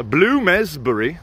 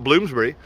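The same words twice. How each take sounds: First: Bloomsbury said as Bloom-ez-bury, drawn out slowly; extra E pronunciation. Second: Said in the usual way. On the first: Shown as a demonstration. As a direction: sound an extra E in the middle of Bloomsbury. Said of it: "Bloom with an E". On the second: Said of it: "not Bloomsbury".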